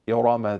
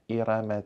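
First: The r sound is heavy and full. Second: The r sound is light and thin. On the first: The speaker calls it right. "you tufakhim al-ra'at" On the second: The speaker calls it wrong. "Don't say"

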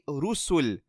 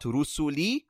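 First: The word ends on the consonant l, no vowel. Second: The word ends with an added final i vowel. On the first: The speaker calls it right. "So we say rusul" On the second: The speaker calls it wrong. "not rusuli, we are stopping"

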